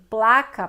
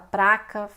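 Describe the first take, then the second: First: It is said with an L sound after p. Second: It is said with an R sound after p.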